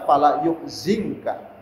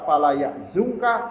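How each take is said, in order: First: The verb's first vowel is u, the second i. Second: The verb's first vowel is a, the second u. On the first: "lughatu Bani Tamim" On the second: This is the well-known standard reading. "bacaan yang masyhur, yang sudah tenar"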